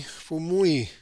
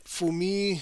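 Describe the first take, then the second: First: Fumui with a gliding "moo-ee" ending; corrected pronunciation. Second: Fumi said as two syllables, "foo-mee"; tentative pronunciation. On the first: Painting teacher settling on the brush maker's name, corrected Fumui as "foo-mwee". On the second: Painting teacher sounding out the brush maker's name, tentative Fumi as "foo-mee". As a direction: try Fumi ending in a plain "mee". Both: Shown as a demonstration. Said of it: "it's just pronounced like Fumui".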